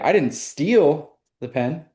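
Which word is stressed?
steal. The word 'steal' carries the main stress. The pen was borrowed, not stolen. "sounds like I borrowed it"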